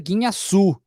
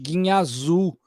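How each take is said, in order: First: A hissing s sound comes before the last vowel. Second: A buzzing z sound comes before the last vowel. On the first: The speaker calls it right. "o correto mesmo era dizer Guiñaçu" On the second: The speaker calls it wrong. "com Z"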